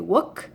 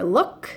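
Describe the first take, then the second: First: The word starts with a W sound. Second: The word starts with an L sound. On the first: The speaker calls it wrong. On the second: The speaker calls it right.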